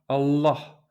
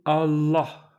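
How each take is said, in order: First: The L is dark, with the tongue curled back. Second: The same.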